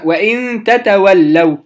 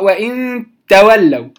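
First: The two t sounds are pronounced separately. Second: The two t sounds merge into one doubled t. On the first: The speaker calls it right. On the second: The speaker calls it wrong. "فلا يقرأ وإن تولوا، لا"

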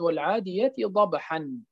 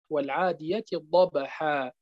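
First: The last word ends with an n sound. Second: The last word ends with a long vowel. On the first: This is the word's underlying form. "هي في الأصل" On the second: This is the form used when pausing on the word. "عند الوقف عليها تصبح"

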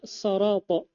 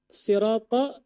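First: The first vowel sounds like 'o'. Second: The first vowel sounds like 'i'. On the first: The speaker calls it wrong. "dibaca so fathah" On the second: The speaker calls it right. "sin si kasra"

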